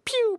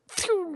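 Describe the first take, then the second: First: The sound starts with a plain, crisp p. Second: The sound starts with a lisping, breathy p. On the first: "the classic pew" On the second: "I had the little lisp in the front"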